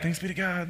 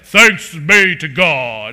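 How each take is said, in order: First: It is said in a normal, plain way. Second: It is said in an exaggerated, showy way.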